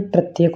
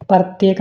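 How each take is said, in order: First: Said in the usual way. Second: प्रत्येक as "partyek", vowel before r; mispronunciation. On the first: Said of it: "प्रत्येक होता है". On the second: Shown as a demonstration. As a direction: open प्रत्येक with par, not pr. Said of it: "प्रत्येक नहीं". (प्रत्येक को 'परत्येक' बोलकर)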